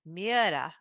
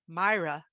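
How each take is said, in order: First: The name is said the Norwegian way. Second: The name is said the British way. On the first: "my Scandinavian friends, they've said it's pronounced Miera" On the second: "In the United Kingdom, I've listened to people pronounce it Myra"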